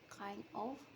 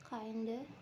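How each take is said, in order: First: Both words are said clearly and separately. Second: The words blend quickly into one reduced form. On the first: "In carefully pronunciation, kind of is articulated as kind of" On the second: "in fast casual speech, the sounds influence each other and are reduced to kinda"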